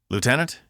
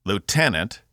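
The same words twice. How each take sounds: First: "Lieutenant" with a high, questioning rise; tentative call. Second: "Lieutenant" higher, stressed in the middle, falling firmly; commanding call. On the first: Cass tries to reach a staring Laura, tentative call. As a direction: say "Lieutenant" rising, checking if they hear you. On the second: Cass calls a dazed Laura to attention, commanding. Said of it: "She snapped to attention". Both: Acted.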